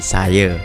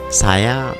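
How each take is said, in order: First: The final vowel is an 'e' sound. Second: The final vowel is an open 'a' sound. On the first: "sering diucapkan dengan E" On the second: "kata-kata dengan bunyi akhir A"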